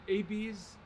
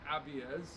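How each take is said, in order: First: It is said with a non-European pronunciation. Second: It is said with a European pronunciation.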